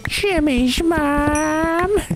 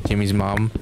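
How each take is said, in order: First: It is said in a put-on character voice. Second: It is said in the speaker's ordinary voice.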